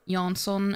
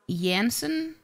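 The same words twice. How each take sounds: First: The name begins with an English J sound. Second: The name begins with a Y sound. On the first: The speaker calls it right. "because it's clearly a J" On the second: The speaker calls it wrong. "not a Y"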